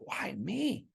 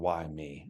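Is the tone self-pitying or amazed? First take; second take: amazed; self-pitying. First: It sounds excited and full of wonder. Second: It sounds gloomy and self-pitying.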